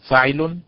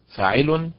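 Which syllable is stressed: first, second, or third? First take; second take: first; second. First: The stress is on the first syllable. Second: The stress is on the second syllable. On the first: "طريقة بالنبر على حركة الفاء هكذا" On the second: "وطريقة بالنبر على حركة العين هكذا"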